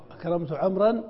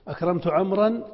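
First: Said in the usual way. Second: عمرا rising, as if posing the choice; questioning read. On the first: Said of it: "بلا واو". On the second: Shown as a demonstration. Teacher putting the option to the students, rising. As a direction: ask with أكرمت عمرا left open. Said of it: "ما الصواب؟".

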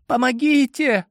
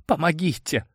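First: High pleading call; girl's cry for help. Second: Trembling whisper. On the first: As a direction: call out from behind the door. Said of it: "вновь раздался женский голос". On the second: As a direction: whisper it in fear. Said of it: "прошептала дрожащим голосом девушка". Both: A narrator's reading.

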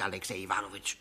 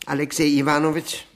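First: Alexei Iwanowitsch dropped low and soft; quiet address. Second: Name called out loud and fast; loud address. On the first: Guest reproaching his host by name, quiet. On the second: Guest hailing his host by name, loud. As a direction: call him by name, loud and quick. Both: Acted.

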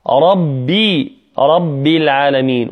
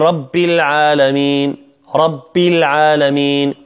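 First: ربي with a firm, voiced double b; doubled clear ba. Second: Devoice the ب of رب to p. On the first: Teacher modelling correct recitation, firm ب in رب. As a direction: press the ب of رب firmly. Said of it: "ولا بد من تشديدها". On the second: Teacher imitating a mistake, رب said as "rap". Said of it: "فتصبح شبيهة بحرف البي". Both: Shown as a demonstration.

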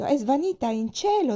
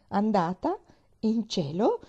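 First: High, loud wailing statement, cielo falling; lament. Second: Bewildered echo, cielo rising into a question; old gardener echoing the maid in disbelief; dumbfounded. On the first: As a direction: keep wailing that she's gone to heaven. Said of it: "disse in un lamento". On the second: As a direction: repeat it in disbelief. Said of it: "ripeteva sbigottito". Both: A narrator's reading.

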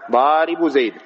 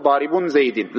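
First: ضارب زيد said daribu zayd, no -un on ضارب; the corrected version, ضارب clipped to daribu before زيد; correct form without nunation. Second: ضارب زيد said daribun zaydin, nunation on both words; wrong form with nunation. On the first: Teacher correcting the wrong form, construct said without nunation. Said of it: "لا". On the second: Teacher showing students the form they must not say, nunation kept. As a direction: show the mistake, ضارب carrying -un and زيد carrying -in. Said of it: "ما تقول". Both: Shown as a demonstration.

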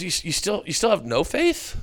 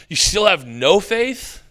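First: Puzzled encouragement rather than scolding; gently incredulous, lifting at the end; Jesus. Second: Slow, high, exasperated question; disbelieving, stretched out impatience; Jesus. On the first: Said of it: "Instead, he's saying". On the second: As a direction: ask as if patience has run out. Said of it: "like he's lost patience". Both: Acted.

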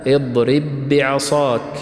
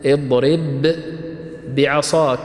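First: اضرب بعصاك slowly joined, the two ب fused into one doubled ب; merged ب. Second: اضرب ends on a distinct still ب, pause, then بعصاك starts on its own ب; separated letters. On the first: Teacher giving an example of small idgham, merged ب. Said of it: "الإدغام، الإدغام الصغير". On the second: Teacher showing students the two letters before merging, separated letters. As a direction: say اضرب and بعصاك apart, each ب sounded separately. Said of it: "في نهاية كلمة اضرب الباء عندنا ساكنة". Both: Shown as a demonstration.

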